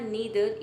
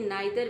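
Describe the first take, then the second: First: The first vowel sounds like 'ee'. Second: The first vowel sounds like 'eye'. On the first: "यहाँ पे आपने देखा नीदर" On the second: "इसे नाइदर भी पढ़ा जाता है"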